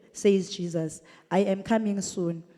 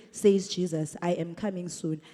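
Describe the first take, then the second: The two takes are said the same way.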